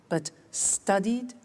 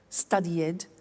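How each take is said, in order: First: The ending is said as a plain D. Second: The ending is said as an extra syllable. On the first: The speaker calls it right. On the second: The speaker calls it wrong.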